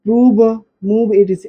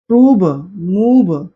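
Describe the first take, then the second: First: prove called out loudly and crisply for the class to copy; loud dictation. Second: prove, मूव said very slowly with the long oo held; drawn-out vowel demo. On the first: Teacher dictating words for students to write, loud. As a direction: call out prove and मूव to write down. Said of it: "देखिए पहले देख लो". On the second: Teacher modelling the oo sound for students, slow and stretched. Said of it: "क्या निकलता है". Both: Shown as a demonstration.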